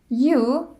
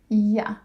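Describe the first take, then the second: First: The word is said in its full form. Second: The word is said in a reduced form.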